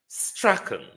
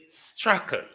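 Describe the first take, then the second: No difference in how they are said.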